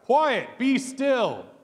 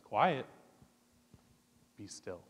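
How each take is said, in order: First: The phrase is yelled loudly. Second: The phrase is said softly and calmly. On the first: "Jesus yells this out" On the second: "Jesus looks at it and says"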